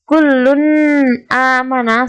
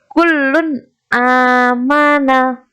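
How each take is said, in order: First: The n sound is blurred into the next word. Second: The n sound is pronounced clearly and distinctly. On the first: The speaker calls it wrong. "bukan kullun amana, salah" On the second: The speaker calls it right. "Yang benar adalah kullun amana"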